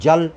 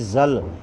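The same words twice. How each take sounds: First: The word begins with a j sound. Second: The word begins with a z sound. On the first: The speaker calls it right. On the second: The speaker calls it wrong.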